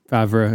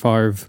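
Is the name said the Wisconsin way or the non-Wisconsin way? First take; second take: non-Wisconsin; Wisconsin. First: The name is said the non-Wisconsin way. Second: The name is said the Wisconsin way.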